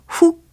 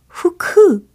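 First: One Korean-style syllable with a clipped ending. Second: Two syllables, with an added vowel after k. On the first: "훅 아니고" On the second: "후크 아니고요"

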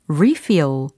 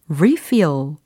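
First: The stress is on the first syllable. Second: The stress is on the first syllable.

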